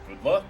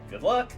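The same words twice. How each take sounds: First: It is said in a Star Fox character voice. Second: It is said in his normal voice.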